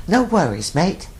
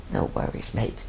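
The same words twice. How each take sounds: First: Cheery Australian "No worries, mate" pitched higher; Aussie saying. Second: "No worries, mate" in a soft whisper. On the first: Host quoting the Aussie saying to listeners, light Australian lilt. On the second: Host echoing the Aussie saying to listeners, whispered. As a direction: breathe "No worries, mate" as a quiet echo. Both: Retold or imitated. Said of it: "The Aussies have a great, uh, they have a great expression".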